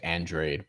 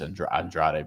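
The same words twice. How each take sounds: First: The name is said with an English pronunciation. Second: The name is said with a Spanish pronunciation. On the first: This is how most people say it. "I know people say Andrade" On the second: This is how the name is supposed to be pronounced.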